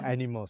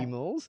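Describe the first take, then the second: First: The second syllable starts with an n sound. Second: The second syllable starts with a g sound. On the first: This is how the child says the word now. The speaker calls it right. "and then now Animals" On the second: This is the child's later, still incorrect form. The speaker calls it wrong. "then he learned it's not Atimals, it's Agimals"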